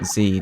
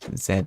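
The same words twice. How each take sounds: First: The letter is said the American way. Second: The letter is said the speaker's own way. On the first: "in America they say Z" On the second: "I just say Z"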